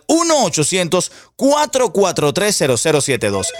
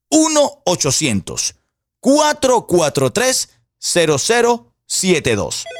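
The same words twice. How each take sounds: First: The number is said at a faster pace. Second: The number is said more slowly.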